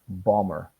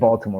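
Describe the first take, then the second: First: The L and T sounds are soft. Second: The L and T sounds are clearly pronounced. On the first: "A lot of people say Balmer" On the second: "kind of like Baltimore"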